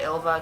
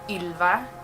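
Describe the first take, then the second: First: The name is said with an English accent. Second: The name is said with a Swedish accent. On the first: This is easier for people outside Sweden. "whenever I moved outside of Sweden, I just said Ylva because it's so much easier" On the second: This is how it is said in Sweden. "It has this really kind of Swedish accent"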